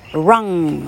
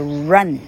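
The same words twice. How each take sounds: First: The final n is made with the tongue back. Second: The final n has the tongue tip between teeth. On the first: The speaker calls it wrong. "这个字我很少听到正确发音的哈，都是念作。" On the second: The speaker calls it right. "你念完以后是稍微看得到你的舌尖的"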